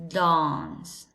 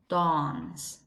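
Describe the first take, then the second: First: It is said in a British English accent. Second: The same.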